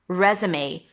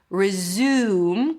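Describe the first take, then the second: First: The word ends with an 'ay' sound. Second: The word ends with an M sound. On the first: It is a document for a job application. "May. A as in day" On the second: It means to start again. "then a Z, and then the U as in food. Close it with an M"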